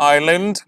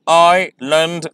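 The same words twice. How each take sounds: First: Said in the usual way. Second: "island" drawn out as is-land; slow syllables. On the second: Shown as a demonstration. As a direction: split "island" slowly. ("island" धीरे, दो syllable में) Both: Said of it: "इन्हें मैं slowly pronounce करूँगा".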